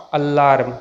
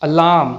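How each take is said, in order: First: Alarm with an audible r before m; slow down and sound the r in alarm. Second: Alarm as "a-laam"; silent r. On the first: Teacher shows the mistake, r sounded. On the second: Teacher models the correct word, r silent. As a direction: drop the r in Alarm. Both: Shown as a demonstration.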